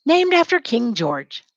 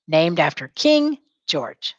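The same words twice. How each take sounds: First: Said in the usual way. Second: "Named after King George" said slowly, "King" stressed; slow it so the class can follow; slow model line. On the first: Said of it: "Say it". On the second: Shown as a demonstration. Teacher modelling a line for students to repeat, slowly. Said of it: "Say it as you're writing".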